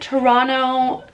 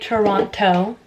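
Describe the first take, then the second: First: The word is clipped, with the middle t dropped. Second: The word is fully pronounced, every t clear. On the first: A local says it. The speaker calls it right. "can you tell where I'm from" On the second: An outsider says it. The speaker calls it wrong. "Toronto people do not say Toronto. That's cringy"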